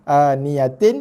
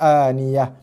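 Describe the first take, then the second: First: The word ends with a 'tin' syllable. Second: The word ends with a soft h sound. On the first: The reading continues without stopping here. "Page ni aniyatin" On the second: The reader stops on this word. "bila berhenti jadi dibaca dengan aniyah"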